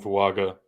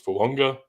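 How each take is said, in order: First: The middle consonant is a plain hard g. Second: The middle consonant is a nasal ng sound. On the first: This is how most Americans say it. "people calling him Fuaga" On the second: This is the traditional Polynesian way. "the traditional pronunciation of his name is Fuunga"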